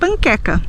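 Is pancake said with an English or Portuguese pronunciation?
Portuguese. It is said with Brazilian Portuguese pronunciation. "nós vamos dizer"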